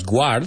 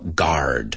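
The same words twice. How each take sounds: First: A w sound follows the g. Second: No w sound follows the g. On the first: The speaker calls it wrong. "no es guard" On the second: The speaker calls it right. "Lo mismo que UA"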